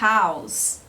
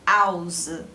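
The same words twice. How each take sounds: First: The initial h sound is clearly pronounced. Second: The initial h sound is dropped entirely. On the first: "house em inglês" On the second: "os franceses pronunciam house"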